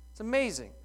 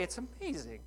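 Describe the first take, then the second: First: "amazing" higher and stronger; emphatic. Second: "amazing" said far softer, almost to himself; hushed wonder at "amazing"; softly awed. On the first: Preacher declares it to the congregation, emphatic. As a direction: proclaim "amazing". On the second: Preacher marvels quietly to the congregation. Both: Real, not acted.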